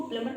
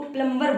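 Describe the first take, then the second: First: प्लम्बर said as plumer, no b; correct, b silent. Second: प्लम्बर said with a clear b, plum-ber; wrong way with b. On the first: Teacher giving students the correct प्लम्बर without b. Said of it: "सही जो pronunciation होता है वो प्लम्बर". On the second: Teacher imitating the common wrong प्लम्बर with b. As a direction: say प्लम्बर voicing the b. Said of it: "हम उनको प्लम्बर बोलते हैं". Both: Shown as a demonstration.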